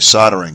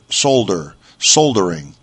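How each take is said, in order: First: The L sound is left out of the word. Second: The L sound is clearly pronounced in the word. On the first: "in the States we just say soldering" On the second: "They pronounce the L in the UK. I think we've discussed this before. So they say solder"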